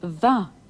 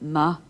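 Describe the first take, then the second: First: The word begins with a v sound. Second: The word begins with a plain m sound. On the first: It describes a feminine noun, as in a fine night. "the sound changes to va" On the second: It describes a masculine noun, as in a fine day. "the ma in wa, ma, a fine day"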